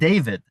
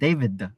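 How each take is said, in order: First: It ends cleanly on a d sound. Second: It ends with an extra schwa vowel. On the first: "instead of saying" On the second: "inserting a schwa sound at the end"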